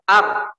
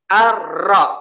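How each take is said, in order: First: The r is trilled lightly and softly. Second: The r is trilled very hard and long. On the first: The speaker calls it right. "seperti itu yang benar" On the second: The speaker calls it wrong. "tidak boleh ar-ra"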